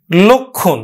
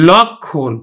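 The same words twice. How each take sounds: First: লক্ষণ as lokkhon, round o; closed o vowel. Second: লক্ষণ as lawkkhon, open first vowel. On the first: Teacher contrasting two spellings, lokkhon with closed o. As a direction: say লক্ষণ starting with lo, no nasal. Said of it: "এটা কিন্তু আমার উচ্চারণ হবে". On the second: Teacher contrasting the m-conjunct spelling, open lawkkhon. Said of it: "উচ্চারণ হবে কিন্তু". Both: Shown as a demonstration.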